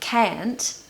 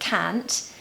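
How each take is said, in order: First: It is in an American accent. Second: It is in a Northern British accent. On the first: "in America, they say can't" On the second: "In the north of Britain, they say can't"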